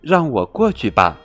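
It is said in a friendly voice.

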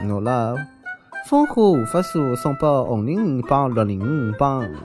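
It is said with a Shanghainese accent.

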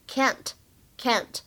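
The vowel is a flat a, as in cat. "而在美式发音呢，我们读作梅花音"

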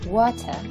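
The middle t is a clear t sound. "英式英语中的水发成water"

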